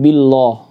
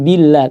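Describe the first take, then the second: First: The vowel is thick and rounded toward 'o'. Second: The vowel is thin and open, like 'a'. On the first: The speaker calls it wrong. "tidak billah" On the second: The speaker calls it right. "kemudian billah"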